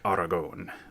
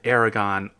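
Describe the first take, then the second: First: It is said closer to the local pronunciation. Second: It is said the common American English way. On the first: "the actual pronunciation is more like Aragon" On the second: "I've heard it Aragon all the time"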